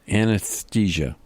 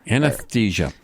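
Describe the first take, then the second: First: The s sound is said clearly. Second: The s sound is said with a lisp. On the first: "Say anesthesia" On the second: "pronounce it with a lisp"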